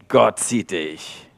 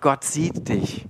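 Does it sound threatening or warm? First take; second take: threatening; warm. First: It is said in a threatening tone. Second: It is said in a warm tone.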